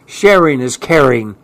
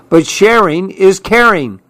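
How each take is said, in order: First: Lightly voiced grumble; grudging mumble of a storybook character; grumbled. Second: Higher-pitched excited protest; voiced child character's outcry; crying out. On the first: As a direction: grumble it without raising the pitch. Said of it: "Clark grumbled". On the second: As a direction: cry it out as an eager objection. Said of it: "cried Clark". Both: A narrator's reading.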